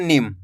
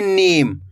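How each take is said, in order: First: नीम with a short i, "nim"; less drawn-out vowel. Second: नीम with a long, held ee; drawn-out vowel. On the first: Teacher demonstrates the short-i sign, नीम barely stretched. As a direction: keep the vowel in नीम brief. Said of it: "कम खींच के पढ़ा जा रहा है". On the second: Teacher demonstrates the long-ee sign, नीम drawn out. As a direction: stretch out the ee in नीम. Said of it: "तो खींच के पढ़ेंगे". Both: Shown as a demonstration.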